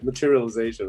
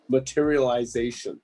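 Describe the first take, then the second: First: The syllables are run together casually. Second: Every syllable is pronounced crisply and distinctly.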